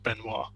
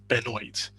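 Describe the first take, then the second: First: The name is said with a non-American pronunciation. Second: The name is said with an American pronunciation. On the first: This is how people outside the country say the name. The speaker calls it right. "everyone outside the U S knows it is pronounced Benoit" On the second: This is how the man says his own name. The speaker calls it wrong. "this guy calls himself Ryan Benoit, which is fucking ridiculous"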